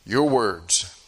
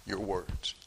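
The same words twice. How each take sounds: First: "Your" hit hard before "words"; firm stress on "Your". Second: "words" stressed, dropped to a hush; quiet lean on "words". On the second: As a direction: let "Your" fall away and lean on "words" softly. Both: Shown as a demonstration. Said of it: "repeated, shifted stress".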